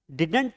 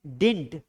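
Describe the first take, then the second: First: Didn't as "di-dant", full second vowel; wrong pronunciation. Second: Didn't squeezed into one syllable, "dint"; correct pronunciation. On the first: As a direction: say didn't the mistaken two-syllable way, "did-ant". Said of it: "didn't पढ़ना गलत है". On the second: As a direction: model didn't as "dint", no middle vowel. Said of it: "इसका सही pronunciation है". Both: Shown as a demonstration.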